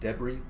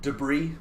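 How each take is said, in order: First: It is said with a British pronunciation. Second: It is said with an American pronunciation. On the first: "it is frequently pronounced debris in British English" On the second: "how we pronounce this in American English"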